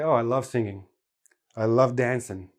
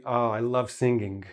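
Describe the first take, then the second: First: "singing" and "dancing" said with the final G dropped. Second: "singing" with the final G said clearly, softer; full G. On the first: Teacher showing everyday speech with the G dropped. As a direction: let the G drop off "singing". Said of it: "We always drop the G". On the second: Teacher showing the form with the G said. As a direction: say "singing" with a hard G at the end. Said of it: "They'll say". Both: Shown as a demonstration.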